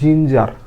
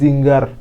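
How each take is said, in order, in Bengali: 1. মাঝের ব্যঞ্জনটি কোমল j ধ্বনি। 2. মাঝের ব্যঞ্জনটি কঠিন g ধ্বনি। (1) "জিঞ্জার মানে আদা" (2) "অনেকে জিঙ্গার, জিঙ্গার বলে থাকে"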